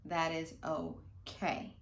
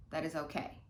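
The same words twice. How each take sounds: First: Slow reassurance. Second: Said in the usual way. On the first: Shown as a demonstration. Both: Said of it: "if that happens".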